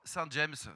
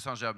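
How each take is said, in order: First: James is pronounced the English way. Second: James is pronounced the French way. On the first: It suits an international market. The speaker calls it right. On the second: It is the local village name. The speaker calls it wrong.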